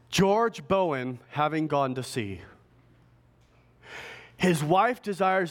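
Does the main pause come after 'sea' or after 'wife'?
after sea. The main pause falls right after 'sea'. His wife asks for prayers while he is at sea. "this is what she wrote to the pastor"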